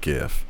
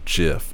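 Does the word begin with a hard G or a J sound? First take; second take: hard G; J sound. First: The word begins with a hard G sound. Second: The word begins with a J sound. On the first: This is the usual way people say it. The speaker calls it right. "instead of GIF" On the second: Someone else said it this way. The speaker calls it wrong. "she said the word GIF instead"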